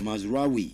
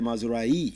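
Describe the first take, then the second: First: The name ends with a clear 'we' sound. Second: The name ends without a 'we' sound. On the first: The speaker calls it right. "every other one is pronounced as we" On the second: The speaker calls it wrong. "Not a Mazrai"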